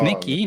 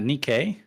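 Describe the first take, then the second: First: The name ends with an 'ee' sound. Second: The name ends with an 'ay' sound. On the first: The speaker calls it right. "Nikki, not Nikkei" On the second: The speaker calls it wrong. "not Nikkei"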